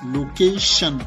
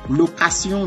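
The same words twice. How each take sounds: First: The last syllable has an sh sound. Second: The last syllable has an s sound. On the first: "qui donne l'expression ch une fois de plus" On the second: "aucune différence"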